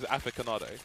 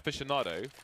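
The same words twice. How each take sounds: First: The word is sounded out as it is spelled. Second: The word has its usual standard pronunciation. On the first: The speaker calls it wrong. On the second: The speaker calls it right.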